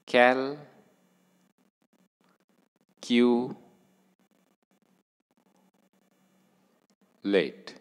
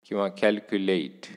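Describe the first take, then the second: First: Teacher drawing out calculate for the class; slow stress demo. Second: Said in the usual way. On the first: Shown as a demonstration. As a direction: stretch calculate, leaning on कॅल्. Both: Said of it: "परत एकदा सांगतो".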